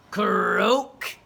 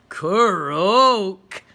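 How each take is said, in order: First: Loud croaking frog; a throaty frog croak. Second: Very loud croak from Freddy; Freddy croaking back proudly. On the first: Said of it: "said the frog". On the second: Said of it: "said Freddy". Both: A narrator's reading.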